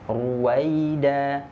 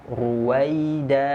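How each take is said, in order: No difference in how they are said.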